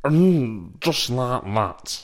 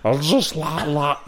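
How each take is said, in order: First: Slow half-voiced catchphrase; a hint of Tommy Cooper's drawl; Tommy Cooper impression. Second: Retried catchphrase, laughter breaking in; lightly voiced Tommy Cooper; Tommy Cooper impression. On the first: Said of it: "Gary Hooper or Tommy Cooper?". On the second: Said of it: "Let me do it again".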